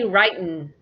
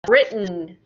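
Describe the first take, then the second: First: The first vowel is long, as in 'ride'. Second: The first vowel is short, as in 'rid'. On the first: The speaker calls it wrong. "do not say writin'" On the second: The speaker calls it right. "When it's a past participle, we change the sound to I"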